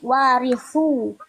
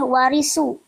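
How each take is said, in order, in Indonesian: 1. Konsonannya desis lembut, tidak bersiul. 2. Konsonannya desis tajam, bersiul. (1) "tapi warisu" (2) "tidak boleh warisu"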